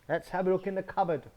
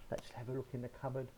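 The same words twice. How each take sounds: First: Eager wolf. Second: Hushed wolf. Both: Acted. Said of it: "and he says".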